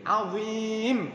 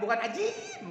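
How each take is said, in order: First: The middle consonant is a z sound. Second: The middle consonant is a j sound. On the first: It means great, an attribute of God. The speaker calls it right. "azim, agung" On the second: It means something like dough. The speaker calls it wrong.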